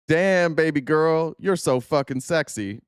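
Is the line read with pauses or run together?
pauses. It is read with pauses between the phrases.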